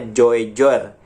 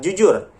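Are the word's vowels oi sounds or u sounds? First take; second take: oi sounds; u sounds. First: The vowels are oi and o sounds. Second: The vowels are plain u sounds. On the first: "ketika kita mengikuti hurufnya dibacanya Joijor" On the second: "Tapi dibaca tetap jujur"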